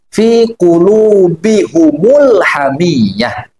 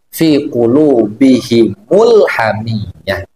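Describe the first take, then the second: First: Both the h and the m take a u vowel. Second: The h takes i and the m takes u. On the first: This is another school's reading of the verse. "membacanya dengan mendobahkan mim jama" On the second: This is the majority reading of the verse. "mengkasrokan hal dhamir dan mendomahkan mim jama"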